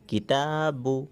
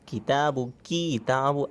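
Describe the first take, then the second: First: The second syllable ta is drawn out long. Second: The first syllable ki is drawn out long. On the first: The speaker calls it right. "ता को खींचना है, काफ को नहीं खींचना है" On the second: The speaker calls it wrong. "ऐसा नहीं करना"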